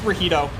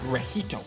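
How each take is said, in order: First: The word is said plainly, like a native English speaker. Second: The word is said with a heavy, emphasized accent. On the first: The speaker calls it right. "We would just be like, eh, it's Rajito" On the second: The speaker calls it wrong. "You put an accent on it"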